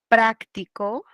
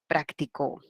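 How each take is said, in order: First: The stress is on the first syllable. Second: The stress is on the last syllable.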